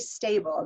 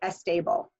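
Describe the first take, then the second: First: The word starts directly with the s sound. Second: An extra e sound comes before the s. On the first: "can't say stable" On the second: "they say stable"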